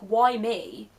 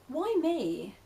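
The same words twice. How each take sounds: First: It sounds angry and frustrated. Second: It sounds calm and curious.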